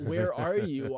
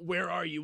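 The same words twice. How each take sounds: First: It sounds warm and longing. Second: It sounds angry and accusing.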